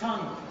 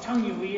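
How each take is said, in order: First: "tongue" as one falling syllable; just "tongue", firmly; correct tongue. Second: "tongue-ui" stretched with a "wee" ending; mispronounced tongue-ui. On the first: Learner lecturing his friend, a one-syllable falling "tongue". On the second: Learner lecturing his friend, drawing out "tongue-ui". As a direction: slowly say "tongue-ui". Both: Retold or imitated. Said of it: "the U E is silent".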